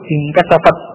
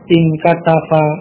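First: The final t ends with no vowel after it. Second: The final t is followed by an i vowel. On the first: "ini juga artinya sukun" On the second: "Kemudian di kasrah"

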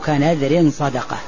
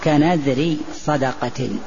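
First: The first word ends with an added n sound. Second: The first word ends without an added n sound. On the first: A vow, namely charity, with charity explaining the vow. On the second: A vow whose content is charity.

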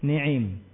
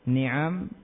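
First: The second vowel is a close 'i' sound. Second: The second vowel is an open 'a' sound. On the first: The word is treated like a verb. "mengkasroh nunnya dan juga ainnya" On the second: This is the form of the Kinanah dialect. "itu lughahnya kinanah"

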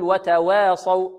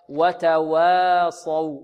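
First: The vowel after w is tilted toward e. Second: The w and its vowel sound thin and light. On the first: The speaker calls it wrong. "لا نقللها ولا نميلها، لا نقول وتواصوا" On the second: The speaker calls it right. "وإخراجها مرققة هكذا"

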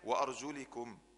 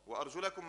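First: The vowel after arjul is an i sound. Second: The vowel after arjul is an a sound. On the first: The feet are grouped with the wiping of the head. "مكسوره" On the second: The feet are to be washed like the face. "مفتوحه"

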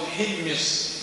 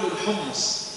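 First: The word has i first, then i after m. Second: The word has u vowels after both consonants. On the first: This is another form used by language scholars. "أو كسره" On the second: This is the everyday local pronunciation. "احنا طبعا نقول الحمص بضم الحاء"

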